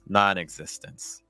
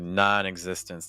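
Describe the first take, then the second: First: The pitch falls far down on the word. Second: The pitch falls only slightly on the word. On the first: "use more of a falling intonation, go down a little bit lower in pitch" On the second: "That was a nice pitch pattern there"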